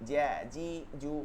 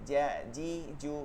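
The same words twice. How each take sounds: No difference in how they are said.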